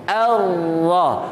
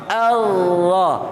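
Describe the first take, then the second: The two takes are said the same way.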